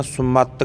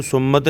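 First: ਸੁਮਤ with an open second vowel, "sum-maa-tə"; ਸੁਮਤ said "summaat-ə"; correct pronunciation. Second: ਸੁਮਤ with a short second vowel, "summut"; ਸੁਮਤ said "sum-mət"; wrong pronunciation. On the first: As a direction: release the t of ਸੁਮਤ into a small "uh". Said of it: "ਸੁਮਤ ਕਹਿਣਾ". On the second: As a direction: clip the ending of ਸੁਮਤ on the t. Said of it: "ਇਹਨੂੰ ਸੁਮਤ ਨਹੀਂ ਕਹਿਣਾ". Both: Shown as a demonstration.

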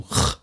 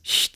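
First: "Ch" as the back fricative of ach; ach-Laut. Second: "Ch" as the front fricative of ich; ich-Laut. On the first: Lecturer shows the adapted sound, back ach-Laut. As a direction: make "Ch" far back in the mouth. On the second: Lecturer shows the underlying sound, front ich-Laut. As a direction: make "Ch" a palatal sound. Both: Shown as a demonstration. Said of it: "dieses Ch zu Ch angepasst".

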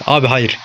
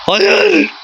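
First: Said in the usual way. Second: A high, despairing wail of no; anguished cry. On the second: Real, not acted. Gamer watching the opponent score, high despairing wail. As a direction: cry out the no in real anguish at the screen. Conceding a goal in the game.

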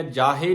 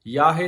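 First: ਜਾਹੇ with a j sound at the start; mispronounced ਜਾਹੇ. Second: ਯਾਹੇ with a y glide at the start; y sound in ਯਾਹੇ. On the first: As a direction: begin ਜਾਹੇ with j instead of y. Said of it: "ਜਾਹੇ ਨਹੀਂ ਕਹਿਣਾ". (ਜਾਹੇ 'ਜ' ਦੀ ਆਵਾਜ਼ ਨਾਲ) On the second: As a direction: begin ਯਾਹੇ with y instead of j. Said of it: "ਯਾਹੇ ਤੇ ਰੁਕ ਕੇ". (ਯਾਹੇ 'ਯ' ਦੀ ਆਵਾਜ਼ ਨਾਲ) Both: Shown as a demonstration.

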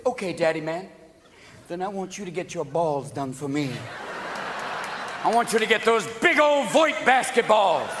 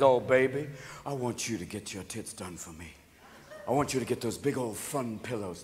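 First: Rising mock-demanding retort; mocking comeback. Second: Low, hushed sweet-talk; soft, low mock-seductive man; coaxing big daddy. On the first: Woman answering back, building louder. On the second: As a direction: murmur it seductively to a lover. Man coaxing partner in skit.

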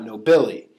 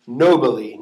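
First: No-BI-li, accent shifted onto the middle of nobili; wrong stress on second syllable. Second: NOH-bi-li, accent on the first syllable of nobili; stress on first syllable. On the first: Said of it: "not nobili". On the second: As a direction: hit the NO in nobili, let the rest fall away. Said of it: "back to the third syllable". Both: Shown as a demonstration.

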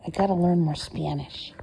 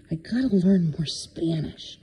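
First: Said in the usual way. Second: Whispered repeat. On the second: Real, not acted. Pet sitter confiding to the cat, whispered. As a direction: breathe the words out as a whisper.

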